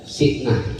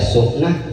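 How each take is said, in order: First: The first vowel is an 'i' sound. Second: The first vowel is a 'u' sound. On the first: "boleh dibaca Si'nah" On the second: "Boleh dibaca Su'nah"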